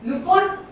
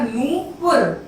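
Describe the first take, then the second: First: The first vowel is short and unstressed. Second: The first vowel is long and stressed. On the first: The speaker calls it wrong. "नुपुर तो छोटा हो गया" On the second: The speaker calls it right. "बड़े ओ की मात्रा"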